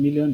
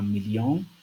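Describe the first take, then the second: First: It is pronounced with English sounds. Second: It is pronounced with French sounds. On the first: "The same autograph but different pronunciation" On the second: "The same autograph but different pronunciation"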